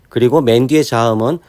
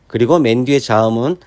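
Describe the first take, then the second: Both takes have the same delivery.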